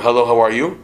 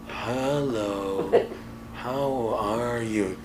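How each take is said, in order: First: It is said fast and hurried. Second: It is said calmly and slowly.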